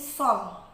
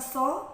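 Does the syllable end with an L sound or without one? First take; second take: with L; without. First: The syllable ends with an L sound. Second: The syllable ends without an L sound. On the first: It asks for blessings. The speaker calls it right. "tapi sol" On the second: It means to burn. The speaker calls it wrong. "Bukan so"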